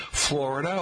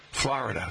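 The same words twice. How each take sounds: First: "Florida" with first syllable like "floor"; "Florida" rhyming its start with sore; native pronunciation. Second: "Florida" as FLAH-rih-duh; "Florida" starting like "flah"; northeastern pronunciation. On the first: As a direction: say "Florida" as FLOR-ih-duh. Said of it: "rhymes with anything but sore". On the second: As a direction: say "Florida" with "ah" in the first syllable. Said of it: "if you rhyme it with ah". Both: Shown as a demonstration.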